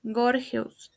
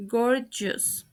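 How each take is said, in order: First: "gorgeous" as gor-hes; mispronounced. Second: "gorgeous" as GOR-jus; correct pronunciation. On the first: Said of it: "The first word mispronounced is". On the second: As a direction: say "gorgeous" with a j sound. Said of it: "The correct pronunciation is". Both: Shown as a demonstration.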